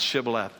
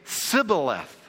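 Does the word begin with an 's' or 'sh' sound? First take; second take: sh; s. First: The word begins with a 'sh' sound. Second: The word begins with an 's' sound. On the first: The speaker calls it right. "the Ephraimites couldn't pronounce Shibboleth" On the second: The speaker calls it wrong. "They had a speech impediment that they could only say Sibboleth"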